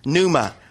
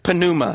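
First: The initial P sound is silent. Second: The initial P sound is pronounced. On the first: The speaker calls it right. "the P is actually silent" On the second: The speaker calls it wrong. "so there's not pneuma"

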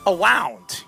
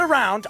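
First: The word is said with a w sound. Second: The word is said with a normal r sound. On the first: "awound, you know? Awound, awound, like the Wefleys" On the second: "not around"

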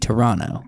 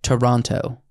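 First: It is said in a Canadian local pronunciation. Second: It is said in an American pronunciation. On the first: This is how locals say the city's name. The speaker calls it right. "because the native dialect, everybody from Canada, ... should be Toronto" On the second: This is how outsiders say the city's name. The speaker calls it wrong. "had to apologize for throughout the film calling it Toronto"

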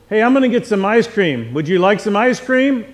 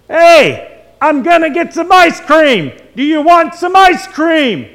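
First: It is said at a normal, quieter volume. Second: It is yelled loudly, right in the ear.

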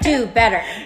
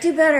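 First: It sounds scolding, like a reprimand. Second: It sounds encouraging, like cheering someone on.

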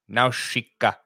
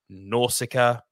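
First: The middle consonant is a sh sound. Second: The middle consonant is a plain s sound. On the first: The speaker calls it right. "S-I in Japanese makes sh" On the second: The speaker calls it wrong. "It is not Nausicaa"

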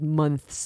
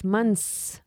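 First: The th sound is pronounced before the s. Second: The th is dropped, with a long s. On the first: "אמורים להגיד months" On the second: "דלגו על ה-TH, months. S ארוכה"

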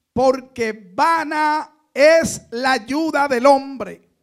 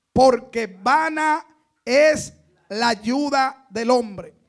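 Both takes have the same delivery.

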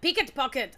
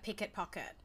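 First: It is said louder and more aggressively. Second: It is said at a calm, ordinary loudness. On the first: Frustration at not being understood. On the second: A plain request.

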